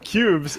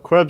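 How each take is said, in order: First: The name sounds like 'cubes'. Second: The name sounds like 'kwebs'. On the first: The speaker calls it right. "you mean cubes" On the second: The speaker calls it wrong. "I didn't even mean to say it"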